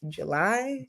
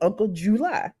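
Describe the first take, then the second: First: The stress falls on the usual syllable. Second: The stress falls on an unusual syllable. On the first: This is the month name as normally said. "I never knew that they meant July" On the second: This is how the relatives said the name. "because they said it like that"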